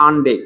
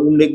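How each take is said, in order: First: "আনডেক" starting with an "aan" sound; wrong pronunciation. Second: "উনডেক" starting with an "oon" sound; correct pronunciation. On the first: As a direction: say "আনডেক" with an a vowel first, as the mistake. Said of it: "না, আনডেক না". ("আনডেক", শুরুতে আ দিয়ে ভুল উচ্চারণ) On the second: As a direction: model "উনডেক" with oo first, not a. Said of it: "এটা উচ্চারণটা উনডেক বলতে হবে". ("উনডেক", শুরুতে উ দিয়ে সঠিক উচ্চারণ) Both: Shown as a demonstration.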